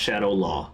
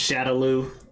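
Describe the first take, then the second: First: The final syllable ends in an 'aw' vowel. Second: The final syllable ends in an 'oo' vowel. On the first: This is how the movie says it. "in this movie, it's pronounced Shadow Law" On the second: This is how the games say it. "in the games, it's pronounced Shadow Lu"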